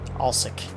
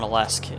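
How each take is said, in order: First: The L and S sit together without a vowel. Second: A vowel sound falls between the L and S. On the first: The speaker calls it right. "It's Alsic. A L S E K" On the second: The speaker calls it wrong. "I've been calling it Alesk. ... So I've been saying it wrong the whole time"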